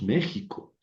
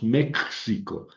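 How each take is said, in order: First: The x is sounded like a throaty j. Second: The x is sounded like ks. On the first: The speaker calls it right. "decimos México. Ahí suena como J" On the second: The speaker calls it wrong. "no decimos México"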